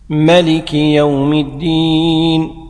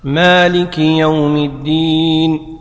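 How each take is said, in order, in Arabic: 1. الحرف الأول المتحرك من الكلمة الأولى قصير. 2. الحرف الأول المتحرك من الكلمة الأولى طويل. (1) "ملك" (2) "مالك"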